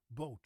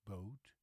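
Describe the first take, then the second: First: Boat short and loud with a flat O; Dutch flat O. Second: Boat lower, with a gliding English O; English pronunciation. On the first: Teacher alternating for contrast, Dutch boot. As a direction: hold the lips still on boat. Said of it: "It's a very flat O". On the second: Teacher alternating for contrast, English boat. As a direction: glide boat toward oo. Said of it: "the English O". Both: Shown as a demonstration.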